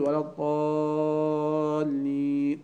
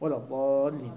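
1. يُمدّ حرف المد مدة طويلة. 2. يُمدّ حرف المد مدة قصيرة فقط. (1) "مو لا تقول" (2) "هاي كافي"

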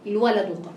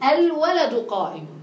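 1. تبدأ العبارة مباشرة بالصامت l. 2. تبدأ العبارة بهمزة ثم حركة. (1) "لا تقول الولد قائم" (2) "طيب الولد قائم"

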